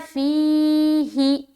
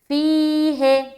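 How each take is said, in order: First: The last vowel sounds like a short 'ee'. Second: The last vowel sounds like 'ay'. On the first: The speaker calls it right. "हमें क्या पढ़ना है, फी ही" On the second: The speaker calls it wrong. "है पढ़ा जिसने, उसने मजहूल आवाज निकाली है"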